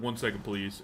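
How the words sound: It is said in a very deep voice.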